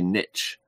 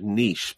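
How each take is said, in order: First: The word is pronounced the American way. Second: The word is pronounced the non-American way. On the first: "apparently Americans say niche" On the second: "I've always said niche"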